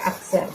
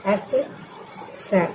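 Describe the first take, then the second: First: Said in the usual way. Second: अक्सर drawn out very slowly and softly; slow, soft repetition. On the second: Shown as a demonstration. Teacher slowly repeats अक्सर for her students. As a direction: stretch अक्सर out gently for the class. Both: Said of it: "मतलब होता है अक्सर".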